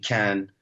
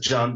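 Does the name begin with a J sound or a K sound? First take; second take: K sound; J sound. First: The name begins with a K sound. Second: The name begins with a J sound. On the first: This is how people abroad say it. "I'm used to everybody calling me Can when I'm abroad" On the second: This is the native Turkish pronunciation. "in Turkish, C is like a J, so it's pronounced as John"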